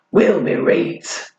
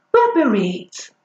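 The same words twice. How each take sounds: First: Slow, proud mock northern "reet"; deliberate northern twang; northern dialect. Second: Mock northern English "reet" for right; playful northern accent; northern dialect. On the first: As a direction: savour the Yorkshire "reet", slowly. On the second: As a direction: put on a Yorkshire twang for "reet". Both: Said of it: "I've clearly mastered dialect".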